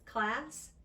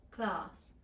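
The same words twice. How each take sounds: First: Said in the usual way. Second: Class said klahs, rounded ah; class with British ah. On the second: Shown as a demonstration. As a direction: drop the jaw on class. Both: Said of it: "this change".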